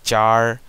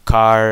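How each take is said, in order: First: The word begins with a ch sound. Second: The word begins with a k sound. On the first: Only some people say it this way. "some people also say char" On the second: This is the usual way to say it. "car is generally the standard way of saying it"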